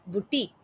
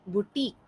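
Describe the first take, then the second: Both takes have the same delivery.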